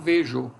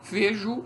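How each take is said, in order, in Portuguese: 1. A vogal final soa como O. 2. A vogal final soa como U. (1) "e não vejo" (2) "Na pronúncia nós temos também um U aqui"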